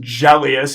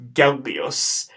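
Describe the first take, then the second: First: It begins with a soft J sound. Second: It begins with a hard G sound. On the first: The speaker calls it wrong. "his name's not going to be pronounced Gellius. He's not Jelly" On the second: The speaker calls it right. "Gellius with a hard G sound"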